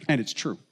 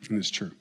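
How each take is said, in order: First: Said in the usual way. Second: Much softer, lower echo of "And it's true."; quiet repeat. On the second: Real, not acted. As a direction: drop the voice and let "And it's true." sink in.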